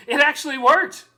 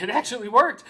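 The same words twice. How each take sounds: First: Higher, louder It actually worked, worked rising in triumph; excited. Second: Amazed It actually worked, worked rising; first stunned take of It actually worked. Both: Real, not acted. Scheme worked, repeated.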